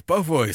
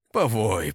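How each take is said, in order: First: Higher, louder mocking growl; rising grim taunt. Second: Louder gruff growl; grumbling taunt. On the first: Ingeld's taunt rises as the traitor howls. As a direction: lean into the threat, rising. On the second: Ingeld growls at the howling traitor. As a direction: mutter a threat at the howling man. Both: A narrator's reading. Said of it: "проворчал Энигельд".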